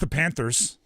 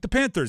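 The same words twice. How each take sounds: First: It is said in a casual, offhand way. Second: It is said with mild excitement. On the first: The fan hides their support for the team. "they almost try to play it cool" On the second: The fan openly supports the team. "a little excited"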